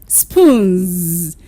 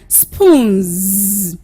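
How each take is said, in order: No difference in how they are said.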